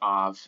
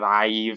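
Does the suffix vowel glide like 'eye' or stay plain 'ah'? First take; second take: ah; eye. First: The vowel is a plain 'ah' before the v. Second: The vowel glides like 'eye' before the v. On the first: The speaker calls it right. "it's just av" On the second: The speaker calls it wrong. "instead of aiv or something like that"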